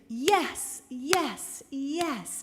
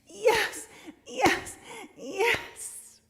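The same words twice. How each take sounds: First: It is said plainly, without much excitement. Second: It is said excitedly, like When Harry Met Sally.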